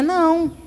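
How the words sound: It is said in a sweet tone.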